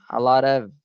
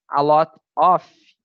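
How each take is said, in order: First: The last word ends with a V sound. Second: The last word ends with an F sound. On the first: The speaker calls it right. "aí o F tem o som do V" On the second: The speaker calls it wrong. "Se você falar a lot off, off, off é isso daqui, off de offline"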